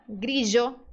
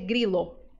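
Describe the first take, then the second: First: The middle consonant is a zh sound. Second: The middle consonant is a plain l sound. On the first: The speaker calls it right. "pode ser pronunciado como J" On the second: The speaker calls it wrong. "Não dá para dizer grilo"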